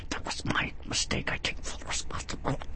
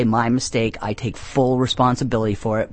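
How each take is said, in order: First: Forced whisper through gritted teeth; through clenched teeth. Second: Said in the usual way. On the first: Shown as a demonstration. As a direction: grit your teeth and whisper it. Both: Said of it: "I say that through clenched teeth".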